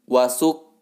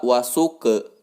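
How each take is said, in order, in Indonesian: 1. Kata ini berakhir dengan bunyi k yang terpotong. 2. Kata ini berakhir dengan tambahan vokal e. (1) "bukan wasuk" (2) "bukan pula wasuke"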